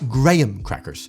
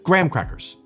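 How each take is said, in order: First: It uses the British pronunciation of graham. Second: It uses the American pronunciation of graham. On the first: The speaker calls it wrong. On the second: The speaker calls it right.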